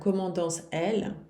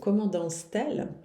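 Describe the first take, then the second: First: The vowels clash with no t sound between. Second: A t sound links the two words. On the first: The speaker calls it wrong. "não é muito bonito" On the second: The speaker calls it right. "é muito mais bonito"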